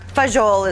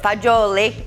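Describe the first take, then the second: First: It is said the common Americanized way. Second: It is said the way Italians say it. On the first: This is the popular everyday name. "is what a lot of people call it" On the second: This is the proper Italian name. "is the pronun- correct pronunciation in Italian"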